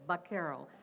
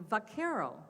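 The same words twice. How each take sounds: First: The word begins with a B sound. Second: The word begins with a V sound.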